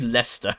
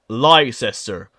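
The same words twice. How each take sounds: First: The name is said in a shorter, contracted form. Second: The name is sounded out as it is spelled. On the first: This is how locals say the name. The speaker calls it right. "it's actually" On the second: This is how outsiders read the name. The speaker calls it wrong. "most Americans will look at this and think, say"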